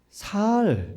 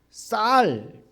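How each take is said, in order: First: The word starts with a plain, soft s. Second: The word starts with a tense, stiff s.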